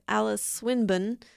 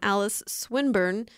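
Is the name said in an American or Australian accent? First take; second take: Australian; American. First: The name is said in an Australian accent. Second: The name is said in a plain American accent.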